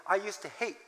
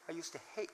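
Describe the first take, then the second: First: Said in the usual way. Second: Much softer, trailing repeat; near-silent echo. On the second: Acted. Pastor echoing his old feeling, almost silent. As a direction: let it fall away to nothing.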